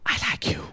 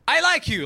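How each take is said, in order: First: The phrase is whispered very softly. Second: The phrase is shouted very loudly. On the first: "I whispered" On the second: "I screamed it too loud"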